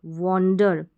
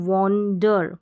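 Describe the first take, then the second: No difference in how they are said.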